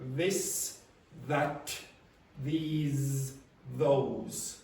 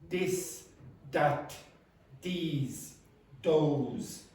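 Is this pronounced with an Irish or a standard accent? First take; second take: standard; Irish. First: It is said with a standard English accent. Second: It is said with an Irish English accent.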